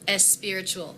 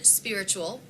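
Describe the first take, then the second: First: An E vowel is added before the S. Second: It starts directly with the S sound.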